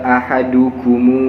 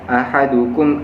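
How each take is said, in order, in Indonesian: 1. Kata ini berakhir dengan vokal u panjang. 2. Kata ini berakhir dengan m mati.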